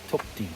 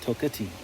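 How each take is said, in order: First: The name is said with two syllables. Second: The name is said with three syllables. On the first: The speaker calls it right. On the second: The speaker calls it wrong.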